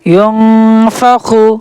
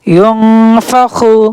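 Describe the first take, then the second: The two takes are said the same way.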